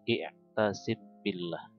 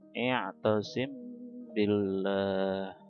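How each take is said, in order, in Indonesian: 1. Huruf m pendek dan biasa sebelum b. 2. Huruf m ditahan dengan dengung sengau. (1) "ketika baca biasa tanpa tajwid" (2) "samar-samar di bibir dan didengungkan"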